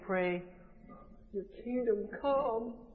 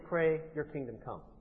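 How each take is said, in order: First: It is said as a polite request. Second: It is said as a plain statement.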